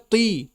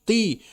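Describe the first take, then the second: The two takes are said the same way.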